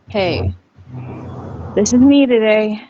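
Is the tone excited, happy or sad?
sad. It is said in a sad tone.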